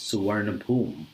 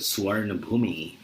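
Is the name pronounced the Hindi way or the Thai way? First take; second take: Thai; Hindi. First: The name is pronounced the Thai way. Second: The name is pronounced the Hindi way.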